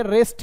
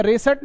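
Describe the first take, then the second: First: रेस्ट in one syllable; correct pronunciation demo. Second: रेसट in two syllables, "re-sat"; wrong pronunciation demo. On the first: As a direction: join S straight to T in रेस्ट. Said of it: "ये रेस्ट है". (रेस्ट में स आधा बोलें) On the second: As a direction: put a vowel between S and T in रेसट. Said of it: "ये रेसट नहीं है आपका". (रेसट में स पूरा बोलें) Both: Shown as a demonstration.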